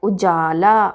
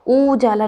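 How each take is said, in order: First: उजाला with short "u", long "jaa". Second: उजाला with a long "oo" start; wrong long ऊ. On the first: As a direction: keep उ short and stretch जा in उजाला. (उजाला में छोटा उ) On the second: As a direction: stretch the first vowel of उजाला. (उजाला को ऊजाला जैसा) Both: Shown as a demonstration. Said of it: "उजाला नहीं".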